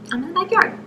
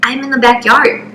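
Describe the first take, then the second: First: Small, high, very soft voice; timid little acted answer; meek repeat. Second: Said in the usual way. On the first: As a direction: say it tiny and high, rising at the end. Meek repeat to angry dad.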